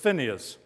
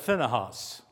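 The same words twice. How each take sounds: First: The H sound in the name is silent. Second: The H sound in the name is pronounced. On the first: The speaker calls it right. "I said the H is silent" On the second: The speaker calls it wrong. "Someone said you pronounce that Phinehas"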